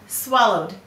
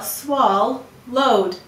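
First: The word is said smoothly as one unit. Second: The word is split into two separate syllables. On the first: This is how the word is normally spoken. "He swallowed hard, swallowed" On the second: This is a spelling pronunciation that shows the letters. "We will say to spell swal-load"

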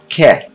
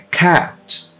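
First: The vowel is less open, not the A-E mix. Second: The vowel is an open sound mixing A and E. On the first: The speaker calls it wrong. "aqui a gente aprendeu que se fala cat, mas não é cat" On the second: The speaker calls it right. "Não no inglês britânico. É cat. ... abrir a boca com um A e falar E"

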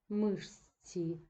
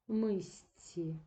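First: The consonant before the ending sounds like 'sh'. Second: The consonant before the ending sounds like 's'. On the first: "Так пишемо" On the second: "так вимовляємо"

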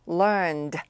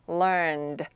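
No difference in how they are said.

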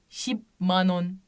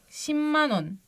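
First: A p sound comes before the m. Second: An m sound comes before the m. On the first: The speaker calls it wrong. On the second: The speaker calls it right.

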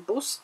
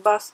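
First: It has a Dublin accent, vowel like 'oo'. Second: It has a standard accent, vowel like 'uh'. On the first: "Мы говорим бус" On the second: "а не бас"

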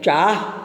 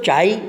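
First: The word ends with an h sound. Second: The word ends without an h sound. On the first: This is the standard pronunciation. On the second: This is the Surti dialect pronunciation.

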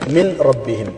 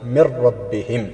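First: The n is pronounced separately before the r. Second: The n merges fully into a doubled r. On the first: "മിൻ നൂനിന് സുക്വനാണല്ലോ" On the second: "സാക്കിനായ നൂന് ശേഷം റാ എന്ന അക്ഷരം വന്നാൽ മണിക്കലില്ലാതെ ഇദ്ഗാം ചെയ്യണം"

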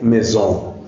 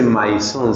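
First: It has an 'e' vowel, 'z' sound and nasal end. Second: It is read letter by letter, as spelled. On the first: The speaker calls it right. "se dice maison" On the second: The speaker calls it wrong. "no se dice maison"

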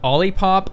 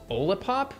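First: It is said like lollipop without the L. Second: It is said unlike lollipop without the L. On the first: "like a lollipop, like I first said it, is correct" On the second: "which makes me think maybe it's OLIPOP"

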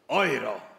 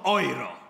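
First: The word is said with a German-like sound. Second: The same.

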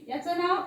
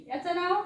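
No difference in how they are said.

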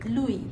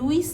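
First: The word ends in a vowel, no s. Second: The word ends with an s sound. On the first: The speaker calls it right. "উচ্চারণটা হবে লুই" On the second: The speaker calls it wrong. "উচ্চারণটা লুইস নয়"

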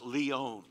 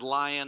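First: It sounds unlike the English word lion. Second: It sounds like the English word lion. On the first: The speaker calls it right. "it's Lyon" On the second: The speaker calls it wrong. "I just said lion and they said, no"

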